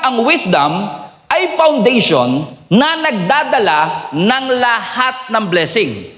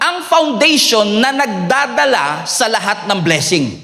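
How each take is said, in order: First: It is said more slowly. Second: It is said at normal speed.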